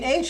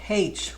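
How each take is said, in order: First: The letter is said without the Irish pronunciation. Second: The letter is said with an Irish pronunciation. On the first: "do you mean H?" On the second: "He always called it H, which is Irish"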